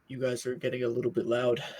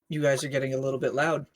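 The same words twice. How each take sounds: First: It is said in a deeper voice. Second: It is said in an ordinary voice.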